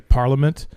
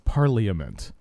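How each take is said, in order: First: A middle syllable is swallowed. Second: Every syllable is pronounced fully. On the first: This is how the British say it. "they swallow syllables up, like the British say Parliament" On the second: This is how the word is spelled. "if you look at the word, it's Parliament"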